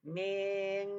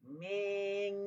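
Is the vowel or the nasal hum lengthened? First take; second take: vowel; vowel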